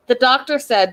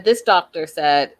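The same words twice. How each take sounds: First: Said in the usual way. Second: Slow and lower, weight on "this"; "this" stressed, slower correction; correcting stress. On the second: Real, not acted. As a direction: lean on "this" to fix the word.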